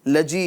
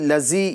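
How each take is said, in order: First: The middle consonant is a j sound. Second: The middle consonant is a buzzing z sound. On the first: "लजी लजी यानी जीम वाली आवाज़" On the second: "ज़ा की आवाज़ पैदा ना होने पाए, लज़ी लज़ी ये तरीका गलत है"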